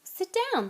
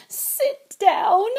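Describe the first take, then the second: First: Polite, higher offer; politely asking him to sit. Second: Loud, high wail of disbelief; high, loud sobbing elf wail. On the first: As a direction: invite him to sit kindly. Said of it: "said Harry politely". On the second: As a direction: wail it through tears. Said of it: "he wailed". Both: A narrator's reading.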